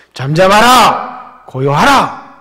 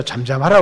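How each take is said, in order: First: Slow, loud command to the sea; commanding rebuke. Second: Said in the usual way. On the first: Acted. Jesus commanding the raging sea, slow loud command. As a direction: order the storm to be still. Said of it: "이렇게 꾸짖으시는 겁니다". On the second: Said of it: "예수님이 바다를 향해서".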